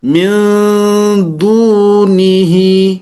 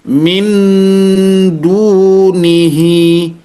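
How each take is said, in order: First: The n sound is hidden and not fully pronounced. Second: The n sound is fully and clearly pronounced. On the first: The speaker calls it right. "kurang lebih seperti itu bacanya" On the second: The speaker calls it wrong. "min dunihi itu salah"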